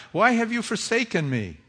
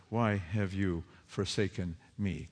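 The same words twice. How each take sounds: First: Higher, louder anguished cry. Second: Soft, low, hushed lament; quiet lament. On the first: Preacher voices Jesus crying on the cross, anguished. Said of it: "Jesus raises this cry". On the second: Preacher voices everyone crying to God, hushed lament. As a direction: let it fall away, hushed and grieving. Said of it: "cries out what we cry out". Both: Acted.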